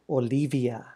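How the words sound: The name is said with a Spanish accent. The name keeps its ethnic heritage.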